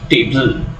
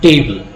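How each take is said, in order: First: The stress is on the second syllable. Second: The stress is on the first syllable. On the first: The speaker calls it wrong. "not table" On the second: The speaker calls it right. "we pronounce it as table"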